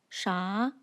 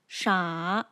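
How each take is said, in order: First: The pitch rises upward. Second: The pitch falls and then rises. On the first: "rises upwards like this" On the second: "falls and then rises"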